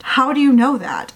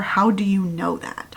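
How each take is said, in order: First: Incredulous, pushed-up repeat of a challenge; insistent. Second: Said in the usual way. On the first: Real, not acted. Reader challenges the heroine's certainty about her ally, insistent. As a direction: press the question harder, a touch higher.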